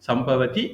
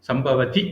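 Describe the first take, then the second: No difference in how they are said.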